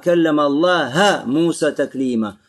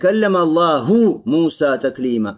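First: The word Allah ends with an a vowel. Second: The word Allah ends with a u vowel. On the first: Moses spoke to God. The speaker calls it wrong. "здесь «фатха» в слове «Аллах»" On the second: God spoke to Moses. The speaker calls it right. "Здесь не «дамма» в слове «Аллах»"

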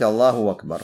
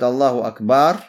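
First: The glottal stop before 'akbar' becomes a w sound. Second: The vowel after the 'b' in 'akbar' is lengthened. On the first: The speaker calls it right. "можно заменить эту гамзу вау и сказать Аллаху Акбар" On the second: The speaker calls it wrong. "удлиняя после «ба», да, ставя вот так вот удлинение"

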